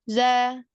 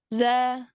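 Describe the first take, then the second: Both takes have the same delivery.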